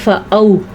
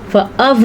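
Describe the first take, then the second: First: The waw is a soft gliding vowel. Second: The waw is a hard consonant w. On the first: The speaker calls it right. "ये लीन है, इसको ऐसे पढ़ा जाता है" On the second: The speaker calls it wrong. "नहीं पढ़ा जाता"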